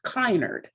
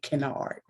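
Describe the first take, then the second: First: The first syllable has a long 'eye' vowel. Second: The first syllable has a short 'eh' vowel. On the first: This is how it is said elsewhere in the country. "In some places in the country, it's pronounced Kynard" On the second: This is how the family has said it lately. "the past two generations, we've been pronouncing it Kennard"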